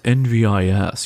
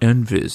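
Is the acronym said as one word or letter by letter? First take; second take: letter by letter; one word. First: It is spelled out letter by letter. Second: It is said as a single word. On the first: The speaker calls it right. "You don't pronounce it like a word" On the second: The speaker calls it wrong. "it's not NVIS"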